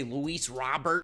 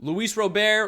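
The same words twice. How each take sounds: First: Robert said as "RAH-bert"; anglicized name. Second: Robert said as "roh-BEAR"; Spanish-style name. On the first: Retold or imitated. Teasing fans for how they say it, Robert slowly as "RAH-bert". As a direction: slowly stress the front of Robert, "RAH-bert", with a final rise. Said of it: "as you guys like to say". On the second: Shown as a demonstration. Introducing the player to fans, Robert proudly as "roh-BEAR". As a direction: stress the end of Robert, "roh-BEAR", punched loud and high. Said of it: "or as you guys like to say".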